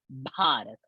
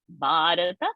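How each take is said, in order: First: The first b has a strong puff of breath. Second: The first b has no puff of breath. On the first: The speaker calls it right. "Bha is a Mahaprana" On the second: The speaker calls it wrong. "not Bharata"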